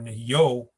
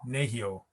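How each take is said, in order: First: The stress falls on a later syllable. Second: The stress falls on the first syllable. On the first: The speaker calls it wrong. "You wouldn't say Nahio" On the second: The speaker calls it right. "you'd say Nahio"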